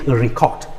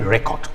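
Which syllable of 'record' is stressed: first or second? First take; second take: second; first. First: The stress is on the second syllable. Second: The stress is on the first syllable. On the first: It asks someone to record. "when it shifts to the second syllable" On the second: It names a thing. "this is my record, a noun"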